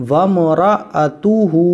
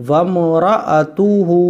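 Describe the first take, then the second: The two takes are said the same way.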